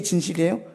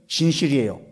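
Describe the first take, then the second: First: 진실이에요 asked with a rising question tune. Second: 진실이에요 answered with a falling, settled tune; answering tune. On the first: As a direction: ask 진실이에요 as a real question, ending up. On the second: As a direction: state 진실이에요 firmly, ending down. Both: Shown as a demonstration. Asks then answers own question.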